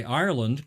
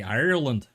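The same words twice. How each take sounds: First: Said in the usual way. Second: Ireland said louder in a put-on Irish accent. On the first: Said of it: "as an Aussie, I would say". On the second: Shown as a demonstration. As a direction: give Ireland a terrible Irish twang. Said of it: "for some reason, I say Ireland".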